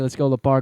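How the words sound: It is said in a Southern American accent. The speaker calls it wrong. "now do a southern accent"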